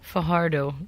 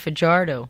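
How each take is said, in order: First: The j is said like an English h. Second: The j is said like an English j. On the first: This is how the family says the name. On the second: This is how Americans say the name.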